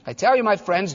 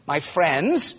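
First: "I tell you, my friends" said gently, falling at the end; loving address. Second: The words "my friends" said gently; tender repeat. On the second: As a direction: linger lovingly on "my friends". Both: Acted. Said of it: "this is the most loving man".

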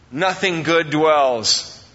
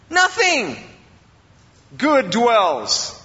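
First: Low, slow weight on "nothing"; stress on nothing. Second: "nothing" pitched high and set apart by a pause; emphatic stress on nothing. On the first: Preacher reading Romans to the congregation, measured stress on "nothing". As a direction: draw out "nothing good dwells", leaning on "nothing". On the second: Preacher repeating the verse for the congregation, high emphatic stress on "nothing". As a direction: hit "nothing" high, pause, then drop for "good dwells". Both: Shown as a demonstration. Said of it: "I emphasize the word nothing".

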